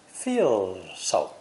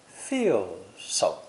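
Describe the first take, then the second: The two takes are said the same way.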